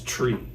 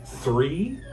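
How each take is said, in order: First: It starts with a plain t sound. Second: It starts with a th sound. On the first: The speaker calls it wrong. "she says tree. She can't say three" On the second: The speaker calls it right. "when she pronounces three"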